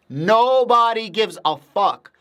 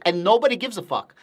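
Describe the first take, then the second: First: Nobody gives a fuck, slow, higher and louder, NOBODY hit; emphatic repeat. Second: Said in the usual way. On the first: Real, not acted. Streamer to chat on Algorand, slow emphatic repeat. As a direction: drag it out and lean on Nobody.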